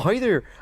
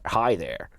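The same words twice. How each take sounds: First: It is said in a Canadian accent. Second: It is said in an American accent.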